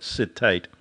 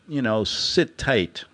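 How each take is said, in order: First: Said in the usual way. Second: "sit tight" drawn out slowly like a patronising guard. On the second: Retold or imitated. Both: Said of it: "I love that".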